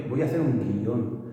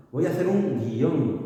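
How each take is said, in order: First: Guión split as gui-ón; two-syllable guión. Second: Guión squeezed into one syllable, gion. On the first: Teacher models how students naturally say guión. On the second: Teacher shows the textbook guión in one syllable. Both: Shown as a demonstration. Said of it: "No dices voy a hacer un guión".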